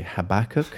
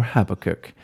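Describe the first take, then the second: First: "Habakkuk" as huh-BAK-kuk, stress on the second syllable; first pronunciation. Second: "Habakkuk" as HAB-uh-kuk, stress on the first syllable; second pronunciation. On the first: Host offering the first option to his co-host, "Habakkuk" stressed on BAK. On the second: Host offering the other option to his co-host, "Habakkuk" stressed on HAB. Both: Shown as a demonstration. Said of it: "whether Kieran prefers to say Habakkuk or Habakkuk".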